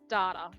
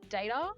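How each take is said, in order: First: It is said with a non-British pronunciation. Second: It is said with the British pronunciation. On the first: "instead of data" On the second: "in U K we pronounce uh, data as data"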